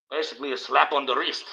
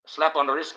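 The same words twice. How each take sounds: First: Said in the usual way. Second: Slap hit a bit higher, repeated for effect; stress on slap. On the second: Shown as a demonstration. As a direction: lean on slap the second time. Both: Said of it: "A slap on the wrist, guys".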